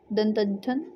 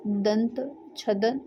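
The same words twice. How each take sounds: First: दंतच्छदन run together as one word; joined-up retry. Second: दंत छदन spoken very slowly, split into two parts; slow split-up attempt. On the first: Teacher retrying the hard word for students, fluent and joined. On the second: Teacher sounding out a hard word for students, slow and careful. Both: Shown as a demonstration. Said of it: "ये थोड़ा सा pronunciation भी नहीं हो पा रहा अच्छे से".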